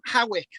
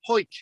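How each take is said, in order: First: It is pronounced as spelled, 'Ha-wick'. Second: It is pronounced as one syllable, 'Hoyk'.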